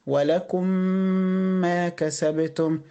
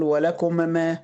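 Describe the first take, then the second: First: Slow, the two meems in "ولكم ما" fused into one long meem; "ولكم ما" said as one meem held two beats; idgham, merged meem. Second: Both meems in "ولكم ما" said apart; "ولكم ما" with two distinct meems; wrong, separate meems. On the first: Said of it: "أقول إيه؟". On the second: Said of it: "مش هقول". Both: Shown as a demonstration.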